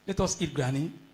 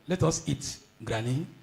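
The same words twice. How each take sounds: First: It runs on with no pause before granny. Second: There is a pause before granny. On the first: Granny is the thing to be eaten. "the other one can be misconstrued to say, let us go and eat granny" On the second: Granny is being invited to eat with us. "The second one says, granny, let us let us together eat"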